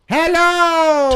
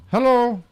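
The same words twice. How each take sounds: First: It is said with exaggerated, over-the-top intensity. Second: It is said with more measured, restrained intensity. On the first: The speaker calls it wrong. "Too much" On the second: The speaker calls it right.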